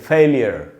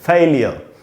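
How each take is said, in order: First: The final r is rolled. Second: The final r is silent. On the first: "American English में ... जीभ को रोल करना चाहिए" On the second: "British English का pronunciation है"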